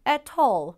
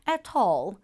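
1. 영국식 억양이에요. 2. 영국식 억양이에요.

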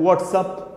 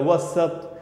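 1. दोनों शब्द पूरे और साफ़ बोले जाते हैं। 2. शब्दों को छोटा करके जल्दी से बोला जाता है। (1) "पूरा करेक्ट जो है वो बोल सकते हैं" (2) "शॉर्ट में"

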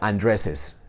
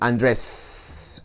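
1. Una vocal separa los dos sonidos de s. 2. No hay vocal que separe los dos sonidos de s. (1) "hay que insertarle un sonido vocálico entre las dos" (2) "no se puede decir Andrés"

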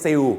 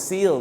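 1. คำนี้ลงท้ายด้วยเสียงคล้าย W 2. คำนี้ลงท้ายด้วยเสียง L ที่ชัดเจน (1) "ไม่ใช่ seal อย่าไปใส่เสียงวอแหวนนะฮะ" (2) "ต้องออกเสียงว่า seal นะฮะซอโซสระอีลอลิง"

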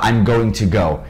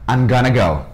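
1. 'Going to' é dito como duas palavras completas. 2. 'Going to' é fundido em uma palavra rápida só. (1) "Só que os nativos não vão falar" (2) "Eles vão falar"

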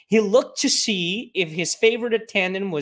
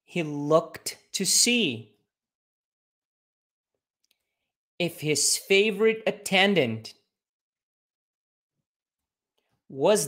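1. A frase é dita em ritmo mais rápido. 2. A frase é dita em ritmo normal.

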